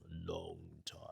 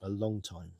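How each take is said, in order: First: Wry murmur. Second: Softer, lower aside; wry aside. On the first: Married man dwelling on the years, wry murmur. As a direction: let "long" stretch and fade almost to nothing. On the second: Married man on being used to it, wry aside. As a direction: drop the voice for a rueful aside. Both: Real, not acted.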